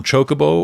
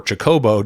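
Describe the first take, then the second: First: Chocobo said CHO-co-bo; stress on first syllable. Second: Chocobo said cho-CO-bo; stress on second syllable. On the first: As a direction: hit the opening CHO of Chocobo. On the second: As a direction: hit the middle CO of Chocobo. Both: Shown as a demonstration. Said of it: "I put different stresses on".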